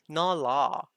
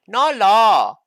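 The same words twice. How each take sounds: First: It is said in the speaker's plain accent. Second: It is said in a put-on Chinese accent.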